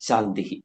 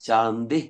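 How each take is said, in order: First: The word ends with an added breathy 'hi' echo. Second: The word ends plainly on the vowel 'i'. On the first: "അപ്പൊ നമുക്ക് ശാന്തിഹി ശാന്തിഹി ശാന്തിഹി ഇതാണ്" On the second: "ശാന്തി ശാന്തി ശാന്തി എന്ന് പറഞ്ഞാലും അതിൽ ഒരു തെറ്റും ഇല്ല"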